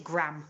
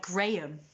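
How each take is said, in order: First: Graham as one syllable, "gram"; Graham rhyming with ham; American Graham pronunciation. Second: Graham as two syllables, "GRAY-um"; Graham with long AY, then um; British Graham pronunciation. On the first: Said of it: "they just pronounce it Graham". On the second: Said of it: "it's spelt like Graham". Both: Shown as a demonstration.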